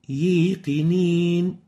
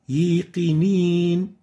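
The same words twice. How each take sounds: First: The long vowel is mixed with an ee sound. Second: The same.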